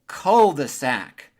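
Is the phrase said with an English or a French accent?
English. It is said with an English accent.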